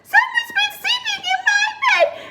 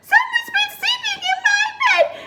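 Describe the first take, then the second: First: It is said in a tiny, squeaky voice. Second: It is said in a tiny, squeaky voice.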